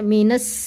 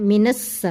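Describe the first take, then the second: The two takes are said the same way.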